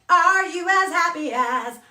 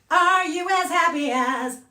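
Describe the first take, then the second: No difference in how they are said.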